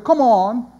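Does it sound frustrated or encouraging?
frustrated. It sounds frustrated and impatient.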